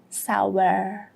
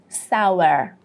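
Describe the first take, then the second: First: It is said with an American accent, final R heard. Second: The same.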